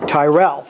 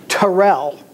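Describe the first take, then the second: First: The first vowel sounds like in 'tie'. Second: The first vowel sounds like in 'ten'. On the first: The speaker calls it wrong. "not Tyrell" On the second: The speaker calls it right. "In fact, his name was Terrell"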